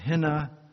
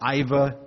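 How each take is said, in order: First: The word starts with an h and has an n. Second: The word starts with a vowel and has a v. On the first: The speaker calls it right. "It's henna" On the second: The speaker calls it wrong. "it looks like Iva to our English eyes, but it's not how you say it"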